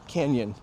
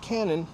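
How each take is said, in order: First: The middle consonant is a ny sound. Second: The middle consonant is a plain n sound. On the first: The speaker calls it right. "that makes the nya sound" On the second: The speaker calls it wrong. "it's not canon"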